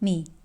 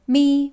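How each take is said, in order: First: The syllable carries the third Mandarin tone. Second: The syllable carries the first Mandarin tone.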